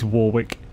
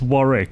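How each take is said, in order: First: The name is pronounced as it is spelled. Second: The name is not pronounced as spelled. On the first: This is how the spelling reads. "even though it's Warwick. Like, it, phonetically" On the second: This is the assumed real pronunciation. "So I assume it's Warwick"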